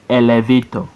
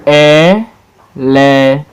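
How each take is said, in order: First: Said in the usual way. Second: E, LE, VA, TOR, slow and separate; syllable by syllable. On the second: Shown as a demonstration. Teacher showing four syllable words, Elevator broken as E-LE-VA-TOR. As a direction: Elevator in four long beats with pauses. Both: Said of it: "Four syllables".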